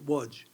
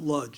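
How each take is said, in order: First: The name is said with non-English sounds. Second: The name is said with English sounds.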